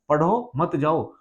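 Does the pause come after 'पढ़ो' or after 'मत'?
after पढ़ो. There is a pause after the word पढ़ो.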